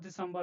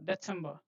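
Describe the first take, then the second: First: The middle consonant is a buzzing 'z' sound. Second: The middle consonant is a sharp 'ts' sound. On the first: The speaker calls it wrong. "not December and all" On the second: The speaker calls it right. "Z is T S"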